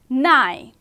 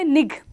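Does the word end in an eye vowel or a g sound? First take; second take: eye vowel; g sound. First: The word ends with a long eye vowel. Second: The word ends with a hard g sound. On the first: The speaker calls it right. "we will say hi, nigh" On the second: The speaker calls it wrong. "we will not say nig"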